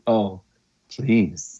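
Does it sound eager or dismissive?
eager. It sounds eager and pleading.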